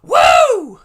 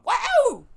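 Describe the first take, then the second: First: A much louder, very high woo shouted full out; Caleb Reynolds woo. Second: A squeaky, very high exclaimed wow, a first try; a quick high-pitched wow impression, not quite landing; Caleb Reynolds wow. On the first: Retold or imitated. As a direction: belt the woo as high and loud as you can. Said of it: "let me try again". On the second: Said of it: "That's about as good as I can do".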